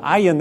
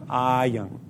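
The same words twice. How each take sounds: First: The first vowel is held short. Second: The first vowel is held long. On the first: It is spicy. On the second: He opens his mouth.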